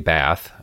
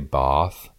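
First: The word has a short, flat 'a' vowel. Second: The word has a long, broad 'ah' vowel. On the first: It is not how locals say the name. "I feel like an idiot because that's not what it is" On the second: It sounds like putting on a local accent. "I feel like a pretentious asshole"

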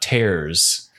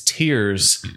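First: The vowel sounds like the one in 'airs'. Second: The vowel sounds like the one in 'ears'. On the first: It refers to ripping. The speaker calls it wrong. "not tears" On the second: It refers to crying. The speaker calls it right. "it's tears"

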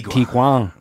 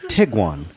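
First: The name is given a Spanish-like pronunciation. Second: The name is given a plain English pronunciation. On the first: The speaker calls it wrong. "I wanted to give it this like kind of like Spanish thing" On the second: The speaker calls it right. "It's the most boring pronunciation you could come"

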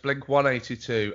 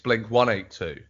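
First: The number is read the American way. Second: The number is read the British way. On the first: "In America, it's Blink 182" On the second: "in the UK, it's Blink 182"

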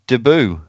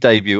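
First: It is said with an American accent. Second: It is said with a British accent.

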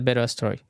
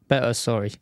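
First: It is said in the speaker's usual accent. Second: It is said in a put-on English accent.

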